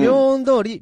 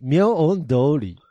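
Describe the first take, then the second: First: 明恩通り held high and level; 明恩通り as one high, unbroken run; first intonation option. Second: 明恩通り very slow, split in parts; 明恩通り drawn out, piece by piece; second intonation option. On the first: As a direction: say 明恩通り high, straight through. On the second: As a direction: stretch 明恩, then 通り, at usual pitch. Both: Shown as a demonstration. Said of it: "どちらが正解でしょうか".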